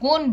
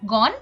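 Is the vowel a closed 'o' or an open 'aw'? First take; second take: closed o; open aw. First: The vowel is a closed 'o' sound. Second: The vowel is an open 'aw' sound. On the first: The speaker calls it wrong. "আমরা কিন্তু গণ বলছি না" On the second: The speaker calls it right. "অ এর উচ্চারণ অবিকৃত থাকে"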